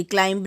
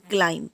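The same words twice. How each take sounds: First: क्लाइंब with the b sounded, as klaimb; क्लाइंब ending on a hard b; wrong way. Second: क्लाइंब said as klaim, b silent; क्लाइंब ends on the m; right way. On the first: Teacher shows students the wrong क्लाइंब. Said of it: "क्लाइंब नहीं". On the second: Teacher gives the class the correct क्लाइंब. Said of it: "इसे क्लाइंब पढ़ेंगे". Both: Shown as a demonstration.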